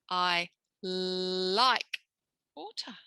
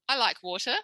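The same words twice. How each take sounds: First: It is said slowly, loudly and very clearly. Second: It is said fast, in a natural way. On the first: The target sound is made easy to notice. The speaker calls it right. "we're saying it a bit louder, a bit slower, and more clearly than usual" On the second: The target sound gets lost. The speaker calls it wrong. "if I speak fast or just naturally"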